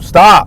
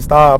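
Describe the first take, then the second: First: The word is said loudly and sharply. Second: The word is said quietly and calmly. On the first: The parent has lost patience with the child. "the father got frustrated and was like" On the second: The parent is patiently asking the child to stop. "the mom said in a calm voice"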